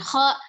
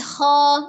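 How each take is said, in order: First: The syllable is cut off with a glottal stop. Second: The syllable is raised and left open. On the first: The speaker calls it wrong. "bukan kho" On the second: The speaker calls it right. "tapi kho, naik"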